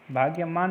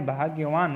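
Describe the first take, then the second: First: भाग्यमान ending in "maan"; bhaagya-maan for भाग्यमान; wrong form. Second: भाग्यवान ending in "vaan"; bhaagya-vaan for भाग्यवान; correct form. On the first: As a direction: sound an m in भाग्यमान. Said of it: "नहीं". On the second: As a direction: sound a v in भाग्यवान. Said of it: "होता है". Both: Shown as a demonstration.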